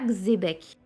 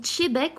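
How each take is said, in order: First: The name starts without a 'tch' sound. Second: The name starts with a 'tch' sound. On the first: The speaker calls it wrong. "on dit pas Xébec" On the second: The speaker calls it right. "on dit Tchébek ... Le Tché se prononce"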